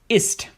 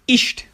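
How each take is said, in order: First: The word ends with a plain s-t sound. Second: The word ends with an sh-t sound. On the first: "At the end of the word, it's st" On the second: "In some areas of southern Germany and Austria, all instances of st sound like st"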